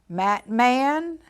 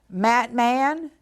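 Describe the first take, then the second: The two takes are said the same way.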